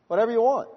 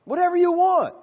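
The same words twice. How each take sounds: First: Said in the usual way. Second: "Whatever you want" repeated much higher and louder; emphatic repeat. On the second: Shown as a demonstration. Preacher repeating to congregation, much higher, emphatic. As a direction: lift the repeat up high, hammering it home.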